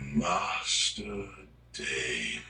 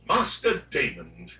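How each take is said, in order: First: It is said in a seductive British voice. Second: It is said in a plain British voice.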